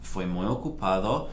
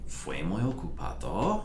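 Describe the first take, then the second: First: The pitch falls at the end like a statement. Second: The pitch rises at the end like a question. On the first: It states that the day was very busy. "And I'll say, sí" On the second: It asks whether the day was very busy. "you can make a question out of the same verb simply, just by intonation"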